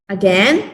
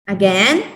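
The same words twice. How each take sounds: No difference in how they are said.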